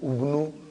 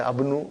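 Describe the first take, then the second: First: The word begins with a u vowel. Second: The word begins with an a vowel. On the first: "I will never say" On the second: "I will never say"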